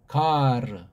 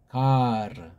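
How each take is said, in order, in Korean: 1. 두 음절이고, r 뒤에 모음이 있어요. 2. 두 음절이고, r 뒤에 모음이 있어요.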